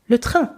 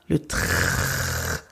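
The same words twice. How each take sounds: First: The phrase is said quickly, at natural speed. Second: The phrase is said slowly, with a drawn-out R. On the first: "realistically, it's just le train" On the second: "it's that phlegmy, ugly spit air"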